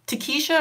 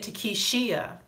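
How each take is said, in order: First: The name ends with a single 'sha' syllable. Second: The name ends with 'shee-a', an extra syllable. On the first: "I would say Takesha" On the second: "you have the I S H I A at the end"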